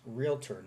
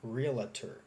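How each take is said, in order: First: It has two syllables after real, no extra vowel. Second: An extra vowel is inserted after the L sound. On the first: The speaker calls it right. "The word realtor is pronounced realtor" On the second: The speaker calls it wrong. "not realtor ... There's no A after L"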